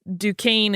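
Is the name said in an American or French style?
American. American style, with a harder vowel sound. "that sort of harder A sound Americanized style"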